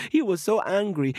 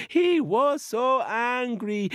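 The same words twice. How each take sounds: First: Said in the usual way. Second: "He was so angry." slow, higher and drawn out; emphatic repeat. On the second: A narrator's reading. Narrator stressing to young listeners how angry Coyote was, slow and higher. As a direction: stretch "so angry" for the kids.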